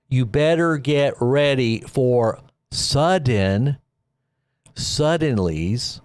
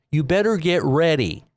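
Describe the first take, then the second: First: Drawn-out, slow, deliberate warning; slow dramatic warning. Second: Said in the usual way. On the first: Real, not acted. Warning his viewers to prepare, slow and drawn out. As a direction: stretch every word so it sinks in.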